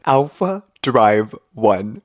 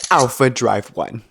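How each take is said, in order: First: Slow "Alpha Drive One" with a gap between each word; spaced-out words. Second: Said in the usual way. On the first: Shown as a demonstration. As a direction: pause after Alpha and after Drive. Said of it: "there is a space between each word".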